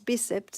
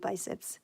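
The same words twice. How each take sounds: First: The word is pronounced the Portuguese way. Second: The word is pronounced the English way. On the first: "in Portuguese it's biceps" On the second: "in English might be biceps"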